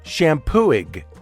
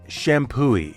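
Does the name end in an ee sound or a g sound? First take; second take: g sound; ee sound. First: The name ends with a hard g sound. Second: The name ends with an ee sound. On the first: The speaker calls it wrong. "It looks like it should be pronounced Shampooig" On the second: The speaker calls it right. "The G is silent, and the accepted pronunciation is Shampooey"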